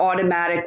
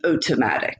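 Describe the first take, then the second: First: The first vowel sounds like 'aw'. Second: The first vowel sounds like 'oh'. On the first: "or automatic" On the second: "the A U sound is pronounced as O"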